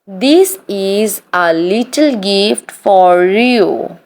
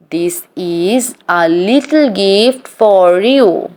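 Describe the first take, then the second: No difference in how they are said.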